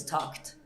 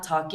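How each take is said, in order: First: Said in the usual way. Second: Talked in two syllables, talk-ed; extra syllable ending talked; pronounced ED ending. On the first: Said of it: "it's not talked". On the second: Shown as a demonstration. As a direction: wrongly sound out the E in talked. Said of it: "it's not".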